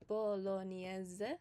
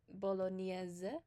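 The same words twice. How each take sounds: The two takes are said the same way.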